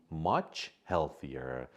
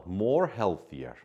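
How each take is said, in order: First: Much healthier slow and deliberate; correct answer. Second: More healthier slow, stressing more; wrong option read out. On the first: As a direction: give the right answer slowly so it sinks in. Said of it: "the correct answer is D". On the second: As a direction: read out the wrong answer deliberately. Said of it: "we can't say more healthier". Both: Shown as a demonstration.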